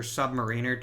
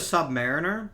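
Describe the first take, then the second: First: Submariner said as sub-muh-REE-ner; long ee in the third syllable of Submariner; alternate pronunciation. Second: Submariner said as sub-MARE-ih-ner; alternate pronunciation. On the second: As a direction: stress the MAR in Submariner, short last syllables. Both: Shown as a demonstration. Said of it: "depending on how you pronounce that word".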